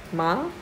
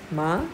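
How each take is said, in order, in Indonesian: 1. Nadanya naik dari sedang ke tinggi. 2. Nadanya naik dari sedang ke tinggi.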